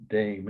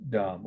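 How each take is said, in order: First: "Dame" said the English way, rhyming with name; English pronunciation. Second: "Dame" said the French way, rhyming with Tom; French pronunciation. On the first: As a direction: say "Dame" as English "daym", with a long a. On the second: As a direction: say "Dame" as French "dahm", with an open a. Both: Shown as a demonstration. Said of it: "most people pronounce that word Dame".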